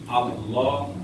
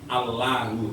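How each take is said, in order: First: The L is pronounced thick and heavy. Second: The L is pronounced thin and light. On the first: The speaker calls it right. "lam yang harus dibaca dengan tebal atau berat" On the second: The speaker calls it wrong.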